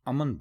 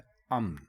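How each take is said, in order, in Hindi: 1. म और न के बीच एक स्वर सुनाई देता है। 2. म और न के बीच कोई स्वर सुनाई नहीं देता। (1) "बहुत सारे लोग अमन बोलते हैं" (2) "मीम के ऊपर ज़बर नहीं लगाएंगे"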